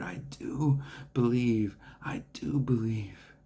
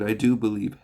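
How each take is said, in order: First: Slow breathless whisper of faith; straining whisper. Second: Loud, urgent cry of faith; exclaimed. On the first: Retold or imitated. A desperate father whispers his belief to Jesus, slowly. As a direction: whisper it slowly, mustering every bit of faith. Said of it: "trying to muster everything in his heart". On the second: A narrator's reading. A desperate father exclaims his faith to Jesus, loud. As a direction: blurt it out louder. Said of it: "the boy's father exclaimed".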